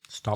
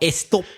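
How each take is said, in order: First: The word begins directly with the S sound. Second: An extra vowel sound comes before the S. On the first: The speaker calls it right. "please stop putting the extra E at the beginning of words" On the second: The speaker calls it wrong. "Not stop, as Spanish say"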